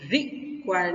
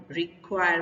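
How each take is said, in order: First: require with a punched RI, then a break before "kwire"; wrong first-syllable stress. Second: require with a short "ri" and a strong long KWIRE; last-syllable stress. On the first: Teacher showing what not to say, require stressed on RI. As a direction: hit RI in require and let the rest drop. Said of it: "तो हम require नहीं बोलते". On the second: Teacher showing the right way, require stressed on KWIRE. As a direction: put the weight on KWIRE in require. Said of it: "बोलते हैं". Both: Shown as a demonstration.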